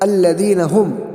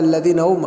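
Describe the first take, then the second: First: The h sound at the second word's start is pronounced. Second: The h sound at the second word's start is dropped. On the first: The speaker calls it right. "तो हा को हम सही से अदा करेंगे।" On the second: The speaker calls it wrong. "कुछ लोग पढ़ते हैं अल्लदीन उम, उम ये क्या है?"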